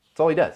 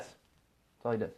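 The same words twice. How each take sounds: First: Higher and louder, hammered out; punchy exclamation. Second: Much slower and softer, dragged out; slow deadpan repeat. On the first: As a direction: fire the line out high and loud. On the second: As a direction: let it drop, slow and deadpan. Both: Acted. Repeats line two ways.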